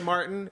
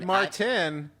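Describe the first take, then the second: First: The t in the middle is soft, not stressed. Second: The t in the middle is crisp and hard. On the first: The name sounds straight. "inherently straight" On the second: "Hard T"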